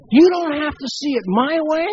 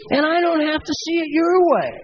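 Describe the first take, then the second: First: "You" lifted and leaned on at the start; "You" pressed, the rest even; stress on you. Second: "your" leaned on, falling at the end; weight on "your", falling close; stress on your. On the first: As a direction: put the weight on "You", then let "my way" ride. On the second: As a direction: land hard on "your" and drop off. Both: Shown as a demonstration.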